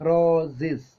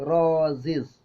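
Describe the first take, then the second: The two takes are said the same way.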